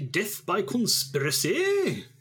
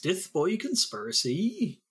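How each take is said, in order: First: It is said in a general British accent. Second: It is said in an English Midlands accent. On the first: "could you say that in a British accent?"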